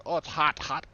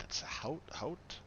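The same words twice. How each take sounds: First: "hot" said like the English word hot, loud; mock the wrong way, saying "hot" as plain hot; mispronounced Haute. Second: "hout" said with an ow sound, rising; corrected pronunciation. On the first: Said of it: "people go". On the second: Shown as a demonstration. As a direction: demonstrate "hout" like the ow in out. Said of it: "It's not even spelled like hot".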